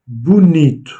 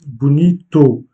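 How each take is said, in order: First: Bonito as "boo-NEET", final o swallowed; corrected pronunciation. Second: Bonito slowly, with a full "toh" at the end; wrong final vowel. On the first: Teacher corrects the wrong version for learners, bonito with silent final o. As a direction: say bonito stressing "nee" and dropping the last vowel. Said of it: "non, bonito". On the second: Teacher shows learners another mistake, mispronounced bonito with sounded final o. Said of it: "ni, ni même". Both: Shown as a demonstration.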